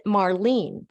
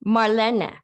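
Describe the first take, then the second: First: Marlene said as mar-LEEN, two syllables; usual English pronunciation. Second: Marlene said as mar-LEN-ah, three syllables; her own pronunciation. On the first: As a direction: say Marlene with a long ee and silent final e. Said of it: "how we would normally pronounce it". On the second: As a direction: say Marlene with a short e and an added final "ah". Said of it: "her, her name is". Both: Shown as a demonstration.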